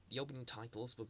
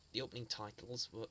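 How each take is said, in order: Both takes have the same delivery.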